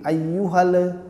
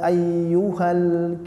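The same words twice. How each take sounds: First: The final l has an echoing bounce. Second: The final l ends cleanly without bounce. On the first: The speaker calls it wrong. "kalau kita nggak arahkan ke kanan ke kiri" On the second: The speaker calls it right. "kalau kita arahkan ke kanan atau ke kiri"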